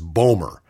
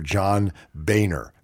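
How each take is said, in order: First: The name is said with an 'm' sound. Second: The name is said without an 'm' sound. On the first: The speaker calls it wrong. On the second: The speaker calls it right.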